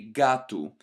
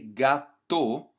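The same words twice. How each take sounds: First: The final vowel sounds like U. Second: The final vowel sounds like O. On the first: The speaker calls it right. "we say gato ... you want this U sound at the end" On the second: The speaker calls it wrong. "we don't say gato"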